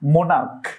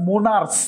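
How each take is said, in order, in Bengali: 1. শব্দটি k উচ্চারণে শেষ হয়। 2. শব্দটি s উচ্চারণে শেষ হয়। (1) "এটা হচ্ছে কি মোনার্ক" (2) "এটার উচ্চারণ মোনার্স না"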